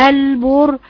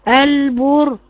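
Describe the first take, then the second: The two takes are said the same way.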